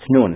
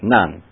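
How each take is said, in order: First: The name is said the original Hebrew way. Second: The name is said the English way. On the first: The speaker calls it right. "It's Nun" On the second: The speaker calls it wrong. "it's not Nun"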